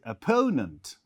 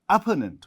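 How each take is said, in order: First: The stress is on the second syllable. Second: The stress is not on the second syllable. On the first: The speaker calls it right. "We say opponent. So stress on the uh, second syllable" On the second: The speaker calls it wrong. "we don't say opponent"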